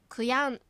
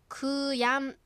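First: The first syllable ku is said lightly. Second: The first syllable ku is said strongly. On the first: The speaker calls it right. "くを軽く発音すると発音しやすいかもしれません" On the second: The speaker calls it wrong. "くやんではなくて"

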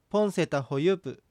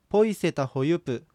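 First: The first word ends with an n sound. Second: The first word ends with a y sound.

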